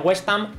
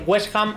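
First: The H is silent. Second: The H is pronounced like a Spanish J. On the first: "otros como muda" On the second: "alguna gente la pronuncia como una J"

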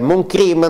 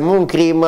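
First: Crime is pronounced the English way. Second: Crime is pronounced the French way. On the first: The speaker calls it wrong. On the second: The speaker calls it right.

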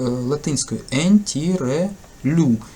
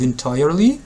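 First: It is read aloud letter by letter, Latin style. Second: It is said with normal English pronunciation.

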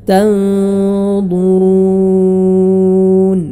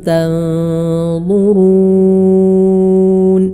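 The two takes are said the same way.

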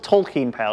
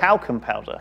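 First: The first vowel is an 'aw' sound as in Tolkien. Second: The first vowel is a short 'a' as in gas. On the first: The speaker calls it wrong. "It's not like Tolkien" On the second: The speaker calls it right. "Why would you pronounce the A so hard?"

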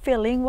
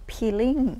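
First: The word begins with an f sound. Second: The word begins with a p sound.

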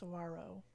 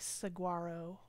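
First: No g sound is heard mid-word. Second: A hard g sound is heard mid-word. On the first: The speaker calls it right. "it's actually just saguaro" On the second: The speaker calls it wrong. "People want to say saguaro"

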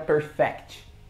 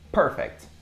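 First: The stress is on the second syllable. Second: The stress is on the first syllable. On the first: The speaker calls it wrong. "não é perfect" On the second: The speaker calls it right. "A tônica tá na primeira parte da primeira sílaba"

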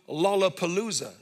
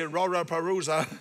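First: The word is said with clear L sounds. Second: The word is said with R sounds replacing L. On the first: "make people say the word Lollapalooza" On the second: "would not be able to pronounce the L's"

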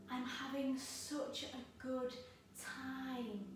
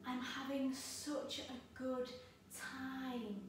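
First: The line is said in a relaxed, laid-back way. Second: The line is said in a relaxed, laid-back way.

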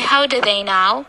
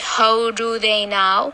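First: The word 'do' is reduced, as 'duh'. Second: The word 'do' is said fully, as 'doo'. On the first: The speaker calls it right. "We say how do they know?" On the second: The speaker calls it wrong. "It is easier than saying how do they know"

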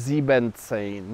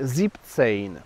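First: The first part keeps both syllables of sieben. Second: The first part is shortened to one syllable. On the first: The speaker calls it wrong. "to nie mówimy siebzehn" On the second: The speaker calls it right. "Jest siebzehn. ... sieben skracany jest do formy sieb"

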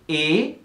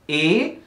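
Both takes have the same delivery.

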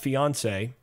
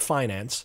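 First: The word is said as fiance, without an extra n. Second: The word is said as finance, with an n.

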